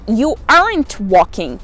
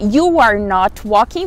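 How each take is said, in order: First: "Are not" is contracted into one syllable. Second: "Are not" is said as two full words. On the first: "A abreviação dessas palavrinhas" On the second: "ao invés de você ver you are not walking"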